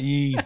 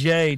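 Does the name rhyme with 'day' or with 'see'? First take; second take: see; day. First: The vowel sounds like the one in 'see'. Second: The vowel sounds like the one in 'day'. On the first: The speaker calls it wrong. "not ye" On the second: The speaker calls it right. "It is yay"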